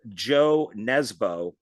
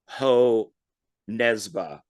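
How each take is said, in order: First: The first name starts with a J sound. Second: The first name starts with an H sound. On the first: The speaker calls it wrong. "I know I'm gonna mispronounce the author's name" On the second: The speaker calls it right. "that's probably like like Ho Nesba"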